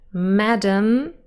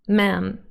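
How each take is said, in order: First: The word is said with two syllables. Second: The word is cut to one syllable.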